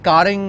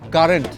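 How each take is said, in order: First: The word ends with an 'ng' sound. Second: The word ends with an 'nt' sound. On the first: The speaker calls it wrong. "আর কারেং না" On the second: The speaker calls it right.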